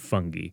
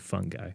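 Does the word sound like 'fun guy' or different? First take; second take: different; fun guy. First: It is said the British way, not 'fun guy'. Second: It is said to sound like 'fun guy'. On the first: "British documentaries where they prefer fungi" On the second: "I'm more of a fun guy, so I tend to go for fungi"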